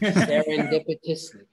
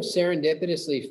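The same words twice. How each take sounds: First: The word is said slowly. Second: The word is said at normal speed.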